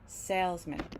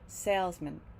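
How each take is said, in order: First: The final syllable is reduced, like mint. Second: The same.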